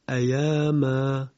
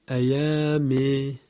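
First: The final vowel is a plain open 'a'. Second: The final vowel is tilted toward 'e'.

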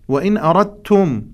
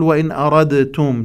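First: The d blends fully into the following t. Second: The d is released with an echoing bounce. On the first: The speaker calls it right. "الدال أدغم في التاء بالإدغام المتجانس" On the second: The speaker calls it wrong. "لا نقول وإن أردتم، لا لا لا، لا تجري صفة القلقل على الدال"

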